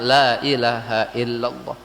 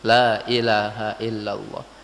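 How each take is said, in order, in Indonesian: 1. Vokal pertama 'la' dibaca panjang. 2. Vokal pertama 'la' dibaca panjang.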